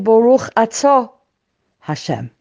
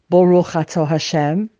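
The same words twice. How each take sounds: First: A brief pause breaks the phrase. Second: The phrase runs on without any pause. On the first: The speaker stops to think about who is addressed. The speaker calls it right. "we say Baruch Atah Hashem. And we take that second or fraction of a second" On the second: It is recited without thinking about who is addressed. The speaker calls it wrong. "we don't say Baruch Atah Hashem"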